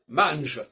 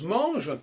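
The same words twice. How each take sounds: First: The vowel sounds like a southern French accent. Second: The vowel is the ordinary standard French nasal. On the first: The speaker calls it right. "devrait s'arranger mange, il mange, comme diront les méridionaux" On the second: The speaker calls it wrong. "le en ne devrait pas se prononcer en"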